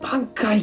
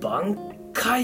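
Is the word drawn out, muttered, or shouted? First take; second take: shouted; drawn out. First: The word is shouted loudly. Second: The word is held and drawn out.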